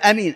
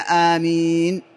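First: The first vowel is short. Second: The first vowel is long and drawn out. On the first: It means trustworthy. The speaker calls it wrong. "أو يقول أمين، أمين غير آمين" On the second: It asks God to answer the prayer. The speaker calls it right. "فالنطق الصحيح لها هي آمين"

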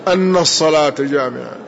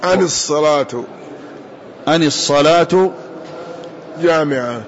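First: The first word ends in a long, doubled n. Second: The first word ends in a short, light n. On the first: The prayer is said to be congregational, with its predicate implied. "وروي بتشديد النون" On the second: The first word is an explanatory particle. "بفتح الهمزة وتخفيف النون"

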